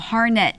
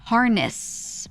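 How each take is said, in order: First: The word ends abruptly with no hiss. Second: The word ends with a hissing s sound. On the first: "you did not push air out" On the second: "but you don't do this, the hiss"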